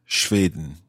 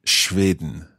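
The two takes are said the same way.

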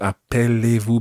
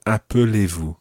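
First: "appelez-vous" with open "pell" as in appelle; wrong middle vowel. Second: "appelez-vous" with weak "uh" after the p; correct middle vowel. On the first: Teacher showing learner the mistake, "appelez-vous" with an open "pell". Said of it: "It's not appelez-vous". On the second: Teacher correcting learner, "appelez-vous" with a weak middle "uh". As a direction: say "appelez-vous" as ap-uh-lay-voo. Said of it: "but appelez-vous". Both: Shown as a demonstration.

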